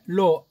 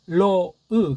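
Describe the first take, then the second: First: It ends cleanly on the vowel o. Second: It ends with an added short eu sound. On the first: The speaker calls it wrong. "로 아니다" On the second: The speaker calls it right. "그렇게 읽어야 맞습니다"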